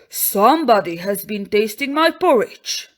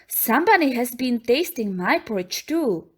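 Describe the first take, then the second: First: It is said in a big, rough voice. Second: It is said in a soft, gentle voice.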